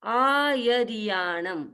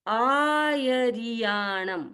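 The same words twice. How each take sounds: Both takes have the same delivery.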